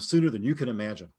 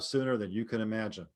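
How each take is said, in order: First: It sounds casual, like natural conversation. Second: It sounds flatly read from a script. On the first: The speaker calls it right. "make it sound conversational" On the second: The speaker calls it wrong. "There, I just read it. Boy, that sounds exciting, doesn't it?"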